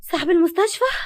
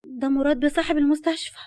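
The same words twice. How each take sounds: First: Gasp, then high, loud question; stunned disbelief with rising ending; shocked. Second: Higher, insistent announcement; pointed warning. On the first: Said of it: "وقالت بصدمة". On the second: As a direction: warn a friend who she is facing. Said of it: "وكملت وهي بتبرق ليها". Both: A narrator's reading.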